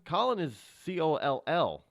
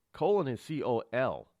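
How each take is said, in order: First: "Colin" with a short o, as in "doll". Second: "Colin" with a long o, as in "coal". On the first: Host contrasts two names, "Colin" said KAH-lin. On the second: Host contrasts two names, "Colin" said KOH-lin. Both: Shown as a demonstration. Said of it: "it's kinda like Colin and Colin".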